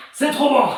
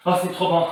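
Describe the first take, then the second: First: Higher and brighter repeat; excited. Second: Said in the usual way. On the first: Real, not acted. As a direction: say it with real delight.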